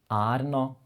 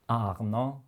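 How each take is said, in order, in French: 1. La R est un son de R norvégien. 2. La R est un son de R français guttural.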